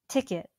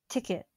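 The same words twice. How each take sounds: No difference in how they are said.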